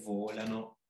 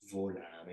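First: The stress is on the second syllable. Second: The stress is on the first syllable.

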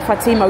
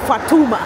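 First: The middle vowel sounds like 'i'. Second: The middle vowel sounds like 'u'. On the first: This is the form not used in Kenya. "we don't say Fatima" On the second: This is the form used in Kenya. "we say Fatuma"

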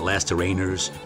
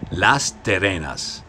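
First: The name is said with an English-like pronunciation. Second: The name is said with a Spanish pronunciation. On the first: The speaker calls it wrong. "It's not" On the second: The speaker calls it right. "learn how to properly say the name of the town"

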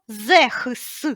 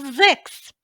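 First: The middle consonant is a rasping kh sound. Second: The middle consonant is a hard k sound. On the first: The speaker calls it wrong. "Ми не кажемо зехс" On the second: The speaker calls it right. "ми кажемо зекс"

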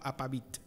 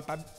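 First: An 'i' vowel is heard before the final T. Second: No vowel is heard between V and T. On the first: The speaker calls it wrong. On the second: The speaker calls it right.

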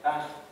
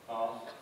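First: The vowel is a short, flat 'a'. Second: The vowel is long and open, like 'ah'. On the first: "People in that part of the country say" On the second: "my own pronunciation is with an R kind of vowel"

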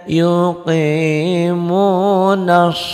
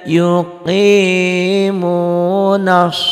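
The two takes are said the same way.

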